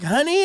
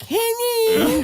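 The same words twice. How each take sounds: First: Sweet honey. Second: High whiny mock echo of the wife's call; mocking whine. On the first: Retold or imitated. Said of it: "will be like". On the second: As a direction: parrot her back in a high whiny voice. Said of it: "I'll be like".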